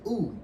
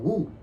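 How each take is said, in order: First: The word starts with a plain vowel. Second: The word starts with a W sound. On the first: The speaker calls it right. "You're not supposed to say the W part" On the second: The speaker calls it wrong. "the one group was called Wu"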